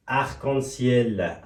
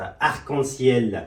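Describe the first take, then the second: First: Arc-en-ciel very slow, each syllable separate; slow pronunciation repeat. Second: Arc-en-ciel drawn out slowly, syllable by syllable; slow pronunciation model. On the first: Teacher repeating Arc-en-ciel slowly for students. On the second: Teacher showing how Arc-en-ciel is pronounced. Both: Shown as a demonstration.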